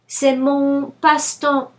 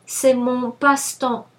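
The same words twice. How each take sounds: The two takes are said the same way.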